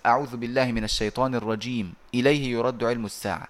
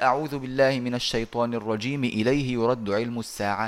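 First: There is a pause before إليه. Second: It runs on with no pause before إليه.

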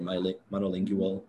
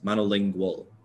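First: It is said with a Canadian pronunciation. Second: It is said with an American pronunciation. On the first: "when I watch Canadian like YouTubers, they always say like bilingual or monolingual" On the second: "Monolingual is what I'd say"

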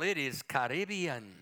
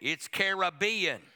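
First: It is pronounced in a posh, upscale way. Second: It is pronounced in a folksy, rural way. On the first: The speaker wants to sound sophisticated. "But if you want to be upper scale" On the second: The speaker is a plain country person. "If you're a redneck"

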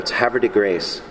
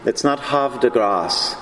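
First: The name is said the local way. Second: The name is said the French way.

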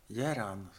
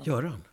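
First: The first vowel is an unrounded e-like sound. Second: The first vowel is a rounded ö sound. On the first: This is how the non-native parents said it. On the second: This is the name as Swedes say it.

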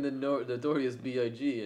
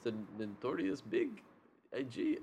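First: It is said without a real German accent. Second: It is said in a high-pitched German accent. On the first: The speaker calls it wrong. "that wasn't a German accent at all" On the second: The speaker calls it right. "The Germans is like this, That's like a high pitched"

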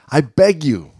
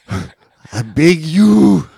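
First: It is spoken in the speaker's ordinary accent. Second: It is spoken with a put-on French accent.

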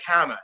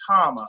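First: The name is said with an Americanized pronunciation. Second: The name is said with its original pronunciation. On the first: The speaker calls it wrong. "as an American kid, I'm like" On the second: The speaker calls it right. "it's Hama"

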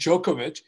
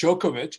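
First: The name is pronounced the American way. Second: The name is pronounced the American way.

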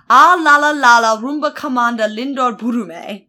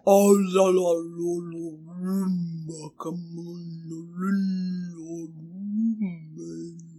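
First: It is said at a normal pace. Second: It is said very slowly.

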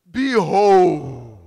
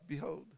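First: It is said grandly and majestically. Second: It is said plainly, without grandeur.

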